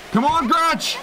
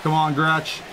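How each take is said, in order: First: Higher, urgent call to the player; excited cheer. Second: Said in the usual way. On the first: Real, not acted. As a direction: yell it up at the screen. Cheering teammate, louder repeat.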